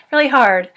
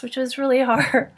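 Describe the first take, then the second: First: Laughing through it, a bit louder; rueful laugh. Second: Said in the usual way. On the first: Real, not acted. Telling a friend about giving up the cats, laughing ruefully. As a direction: laugh it off as you repeat. Repeating it, second time laughing.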